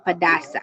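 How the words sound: Some consonants in the word are dropped. "They are pronounced only Padasa"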